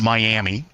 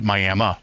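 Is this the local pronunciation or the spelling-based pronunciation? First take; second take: spelling-based; local. First: It is said the way it is spelled. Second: It is said the way locals pronounce it. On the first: "that's spelt Miami" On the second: "but they pronounce it Miami"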